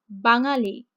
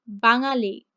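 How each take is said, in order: No difference in how they are said.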